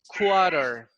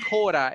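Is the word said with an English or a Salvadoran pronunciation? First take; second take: English; Salvadoran. First: It is said with an English pronunciation. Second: It is said with a Salvadoran Spanish pronunciation. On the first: The speaker calls it right. "it's quarter" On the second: The speaker calls it wrong. "In El Salvador, we say Cora, but it's not Cora"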